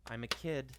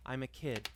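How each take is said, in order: Both takes have the same delivery.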